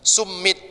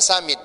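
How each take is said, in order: First: The m sound is held long, doubled. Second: The m sound is short, single. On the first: This follows the double letter in the spelling. The speaker calls it wrong. "Summit tulisannya" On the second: This is how English speakers actually say it. The speaker calls it right. "bacanya summit gitu"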